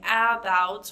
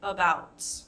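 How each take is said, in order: First: The first vowel is a full, clear vowel. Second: The first vowel is a relaxed 'uh' sound. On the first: The speaker calls it wrong. "we're not saying about" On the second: The speaker calls it right. "we're saying about. Right? It's kind of an uh sound"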